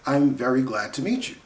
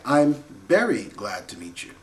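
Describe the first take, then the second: First: Very begins with a V sound. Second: Very begins with a B sound. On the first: The speaker calls it right. "Easy enough" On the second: The speaker calls it wrong. "Japanese students might say"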